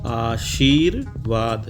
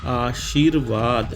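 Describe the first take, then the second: Both takes have the same delivery.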